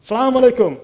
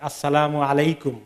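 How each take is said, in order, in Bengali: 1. গ্রিটিংটি সংক্ষিপ্ত 'salam' দিয়ে শুরু হয়। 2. গ্রিটিংটি পূর্ণ 'as-salamu' দিয়ে শুরু হয়। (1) "কত তরিকা আছে" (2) "সালামটাকে ঠিক মতো বলা, উচ্চারণ করা ঠিক মতো"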